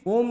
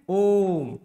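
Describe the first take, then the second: First: The vowel is said short and plain. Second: The vowel is held for three beats. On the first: The speaker calls it wrong. "ओम नहीं बोलना है" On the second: The speaker calls it right. "ये वाला भी आपका तीन मात्रा है"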